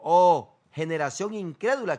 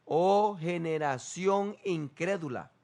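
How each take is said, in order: First: "Oh" blasted out loud then the rest plain; sharp loud cry of "Oh"; loud exclaimed rebuke. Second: Drawn-out grieving rebuke; slow, heavy "Oh generación incrédula"; slow solemn lament. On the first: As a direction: burst out on "Oh". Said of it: "Lo primero que responde es". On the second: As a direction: stretch each word like a sorrowful sigh. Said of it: "Respondiendo Jesús dijo". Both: Shown as a demonstration.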